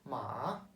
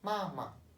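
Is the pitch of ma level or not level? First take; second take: not level; level. First: It is said in the third, non-level tone. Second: It is said in the first, level tone. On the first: It means horse. "3. vurguyla söylerseniz yani şöyle söylerseniz" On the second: It means mother. "ma birle söyledim"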